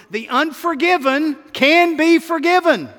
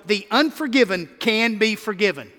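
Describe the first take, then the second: First: Higher, louder, stress on "be"; "the unforgiven can be forgiven" shouted in triumph, "be" hammered; 1 shouted refrain. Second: Said in the usual way. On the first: Shown as a demonstration. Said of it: "Yes, Lord, yes". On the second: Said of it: "Number one".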